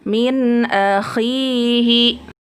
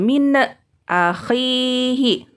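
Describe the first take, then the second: First: The n sound flows smoothly into the next word. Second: The n sound is bounced with a little echo. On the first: The speaker calls it right. "dibacanya mengalir saja" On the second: The speaker calls it wrong. "tidak boleh nunnya dipantulkan"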